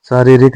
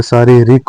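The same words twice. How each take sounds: First: शारीरिक with the middle nearer re; wrong middle vowel. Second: शारीरिक with a clear ree in the middle; correct ee in middle. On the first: Teacher showing learners the mistake, शारीरिक as saa-re-rik. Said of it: "शारीरिक होता है". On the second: Teacher giving learners the correction, शारीरिक with middle ree. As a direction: say शारीरिक as saa-ree-rik. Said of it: "शारीरिक नहीं होता है". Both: Shown as a demonstration.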